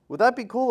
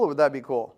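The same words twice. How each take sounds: First: "Would that be cool" asked high and rising; first half of a playful either-or question, high and rising; rising tune. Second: "or would that be cool" dropped low and falling; second half of the playful either-or question, low and falling; falling tune. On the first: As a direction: lift "cool" up as a light question. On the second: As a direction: let "cool" fall low, as if the answer is obvious. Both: Shown as a demonstration.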